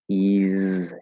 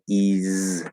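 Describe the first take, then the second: No difference in how they are said.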